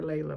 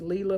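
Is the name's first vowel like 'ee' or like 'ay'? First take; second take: ay; ee. First: The first vowel sounds like 'ay'. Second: The first vowel sounds like 'ee'.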